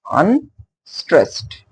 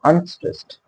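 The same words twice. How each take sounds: First: "Unstressed" split slowly into un, then STRESSED; teacher sounding out "Unstressed", light UN, pause, weighted STRESSED; syllable stress demo. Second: Said in the usual way. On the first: Shown as a demonstration. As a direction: say "Unstressed" in two separate beats, more effort on the second. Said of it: "more effort to say stressed". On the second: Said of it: "let me take the example of".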